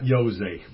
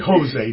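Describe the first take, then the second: First: The name begins with a J sound. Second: The name begins with an H sound. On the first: The speaker calls it wrong. "not Jose" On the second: The speaker calls it right. "But not in Spain, it's an H. We say Jose"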